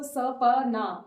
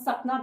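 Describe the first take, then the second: First: A short vowel is sounded after the p. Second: The p runs straight into the n. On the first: The speaker calls it wrong. "सपना कभी नहीं बोलते" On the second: The speaker calls it right. "प बहुत जल्दी बोला गया है, तो इसके बाद ए नहीं आएगा"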